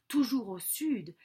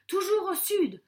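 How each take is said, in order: First: Said in the usual way. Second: "toujours au sud" pitched high and louder; urgent instruction. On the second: Acted. Father sends his son off, "toujours au sud" high and insistent. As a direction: drive home "toujours au sud" like vital advice.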